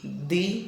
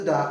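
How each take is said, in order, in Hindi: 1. स्वर एक लंबी 'ee' ध्वनि है। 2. स्वर एक छोटी 'uh' ध्वनि है। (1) "जब वॉवेल से पहले आता है तो उसको हम दी बोलते हैं" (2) "व्यंजन अर्थात कॉन्सोनेंट से शुरू होने वाले शब्द से ... पहले आता है तो हम इसको दा बोलते हैं"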